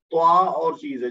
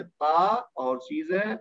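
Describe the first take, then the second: First: توا with a heavy emphatic t, stressed; توا as the heavy Arabic t; emphatic toa sound. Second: تا as the plain dental t; plain ta sound. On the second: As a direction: say تا with an ordinary light t. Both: Shown as a demonstration. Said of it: "اس میں توا ہے، تا نہیں ہے".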